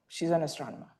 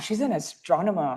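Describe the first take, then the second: First: It sounds plain and matter-of-fact. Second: It sounds amazed and impressed.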